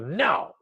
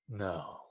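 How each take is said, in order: First: It is said in a harsh, insulting tone. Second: It is said in a calm, smooth, low tone. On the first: The listener is being called an idiot. The speaker calls it wrong. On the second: The refusal is firm without attacking the listener. The speaker calls it right.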